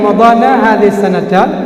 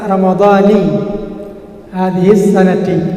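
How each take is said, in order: First: Ramadhan ends with an a vowel. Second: Ramadhan ends with an i vowel. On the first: The phrase carries a different legal meaning. "Berbeda arti dengan Ramadhana hadhihi sanata" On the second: The word is linked as a possessive construction. "pilihan beliau adalah Ramadhani hadhihi sanati"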